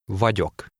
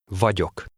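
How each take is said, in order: Both takes have the same delivery.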